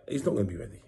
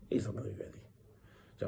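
First: Said in the usual way. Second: Whispered aside to the viewers. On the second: Shown as a demonstration. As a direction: drop to a hushed whisper. Repeats the line, dropping to a whisper.

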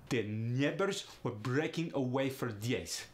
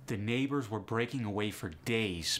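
First: Russian accent with glided "ay" vowels. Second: Said in the usual way. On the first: Shown as a demonstration. [name] demonstrates the A in great, Russian accent. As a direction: say "neighbors" as "nyeh-bors", Russian accent. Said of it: "In Russian, becomes aya".

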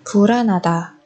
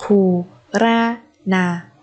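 First: Said in the usual way. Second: Very slow, separated "Puranada"; syllable by syllable. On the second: Shown as a demonstration. Teacher modelling a word for learners, very slowly. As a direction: space out every syllable of "Puranada".

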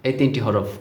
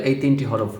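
No difference in how they are said.

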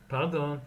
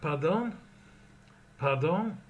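First: Pardon said with a falling tune. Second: Pardon said with a rising question tune. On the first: Teacher models Pardon with a falling tune. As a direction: let Pardon drop at the end. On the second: Teacher models Pardon as a question. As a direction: lift the end of Pardon like a question. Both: Shown as a demonstration. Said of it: "number two".

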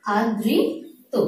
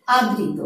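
First: আদৃত stretched slowly with a rise; slow demonstration. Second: Said in the usual way. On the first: Shown as a demonstration. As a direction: draw out আদৃত to show the doubled sound. (আদৃত ধীরে টেনে উচ্চারণ) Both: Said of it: "যেমন".

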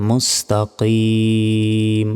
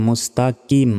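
First: মুস্তাকিম with back-of-throat q and long ee; deep qaf. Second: মুস্তাকিম quick, with an ordinary front k; common mispronunciation. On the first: Teacher models the right reading, deep-q মুস্তাকিম. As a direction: make the k of মুস্তাকিম a deep q, hold the ending. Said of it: "এখানে কফ রয়েছে". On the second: Teacher quotes what many say, quick plain-k মুস্তাকিম. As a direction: say মুস্তাকিম with plain k and short ending. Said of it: "অনেকে বলি". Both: Shown as a demonstration.

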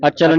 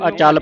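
First: ਅਚਲ with short vowels, "achal"; short-vowel misreading. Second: ਅਚਲ with long aa, "achaal"; correct long vowel. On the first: Teacher showing the mistake to avoid, ਅਚਲ as short "achal". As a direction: cut the "chal" of ਅਚਲ short. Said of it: "ਅਚਲ ਨਹੀਂ ਪੜ੍ਹਨਾ". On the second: Teacher giving the correct reading, ਅਚਲ as "achaal". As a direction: stretch the second vowel of ਅਚਲ to "aa". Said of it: "ਇਹਨੂੰ ਅਚਲ ਪੜ੍ਹਨਾ". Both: Shown as a demonstration.

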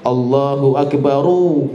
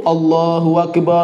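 First: Akbaru said slowly with the final ru clearly voiced; correct ending. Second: Akbar said with the final ra dropped, a short open ending; wrong reading Akbar. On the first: Teacher showing the right reading, slow Akbaru with clear ru. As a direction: stretch Akbaru and land on a full ru. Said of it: "bagaimana bacanya". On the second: Teacher showing students the wrong reading, Akbar cut short. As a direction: clip Akbar to a bare short ending, no vowel after r. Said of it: "Tapi bacanya sering keliru". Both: Shown as a demonstration.

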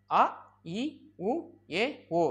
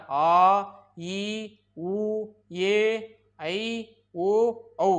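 First: "அ, இ, உ, ஏ, ஓ" as quick separate sounds; short vowels. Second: "ஆ, ஈ, உ, ஏ, ஐ, ஓ, ஔ" held out evenly; long vowels. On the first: Teacher listing the short letters, brief vowels. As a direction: cut each vowel short, pitch lifting. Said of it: "குறுகி ஒலிக்கும் எழுத்துக்கள்". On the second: Teacher listing the long letters, held vowels. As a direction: draw out each vowel, then pause. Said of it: "நீண்டு ஒலிக்கிற". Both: Shown as a demonstration.

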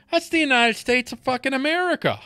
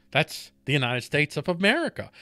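First: "That's the United States of fucking America" pitched higher, hitting "fucking"; emphatic climax. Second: Said in the usual way. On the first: Acted. Host ending his repeated line to listeners with an emphatic "fucking". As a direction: punch the line home, higher than the takes before it.

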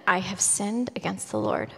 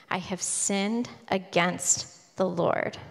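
First: Said in the usual way. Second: "I have sinned against the Lord" drawn out slowly and softly; slow solemn repeat. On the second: Retold or imitated. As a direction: let each word of the confession land, slowly. Confession repeated, slowed.

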